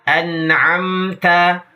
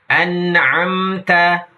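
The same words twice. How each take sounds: No difference in how they are said.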